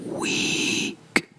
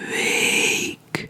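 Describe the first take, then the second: First: The vowel is a long ee sound. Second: The vowel is a long ay sound. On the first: The speaker calls it wrong. "not week" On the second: The speaker calls it right. "it literally sounds like the English word to wake up"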